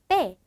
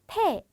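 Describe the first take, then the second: First: The first consonant is tense, with no puff. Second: The first consonant is aspirated, with a puff. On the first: The speaker calls it right. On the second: The speaker calls it wrong. "그냥 패 아니고"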